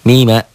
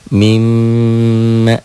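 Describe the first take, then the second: First: The m is single and short, not held. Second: The m is doubled, held and nasalized. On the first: "Dobelnya nggak ada, dengungnya nggak ada" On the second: "itulah gunnah"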